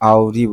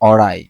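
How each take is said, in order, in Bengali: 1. শব্দটি 'ree' ধ্বনি দিয়ে শেষ হয়। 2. শব্দটি 'rye' ধ্বনি দিয়ে শেষ হয়। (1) "আউরি বলে ফেলছি আমি আবারও" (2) "এটা হবে অরাই"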